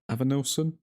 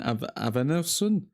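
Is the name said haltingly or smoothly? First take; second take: smoothly; haltingly. First: The name is said smoothly in one go. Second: The name is said haltingly, with a restart. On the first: The speaker calls it right. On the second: The speaker calls it wrong.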